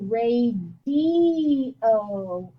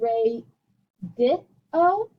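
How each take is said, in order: First: The middle vowel sounds like 'ee'. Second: The middle vowel sounds like 'ih'. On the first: The speaker calls it right. "I say ... the I sounds like an E" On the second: The speaker calls it wrong. "And I don't say"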